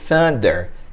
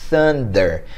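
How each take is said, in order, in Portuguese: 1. Começa com o som de th. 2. Começa com o som de th.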